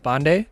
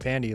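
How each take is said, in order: First: The name is said in its original way. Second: The name is said in an anglicized way. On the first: This is the form true to the family's roots. "the real pronunciation of my name, if I'm really true to my roots" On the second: This is the easier everyday form of the name. "the other pronunciation because it's just easier to pronounce"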